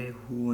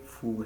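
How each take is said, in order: First: The syllable starts with an h sound. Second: The syllable starts with an f sound. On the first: The speaker calls it wrong. "ये हु नहीं है" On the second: The speaker calls it right. "बल्कि फू है"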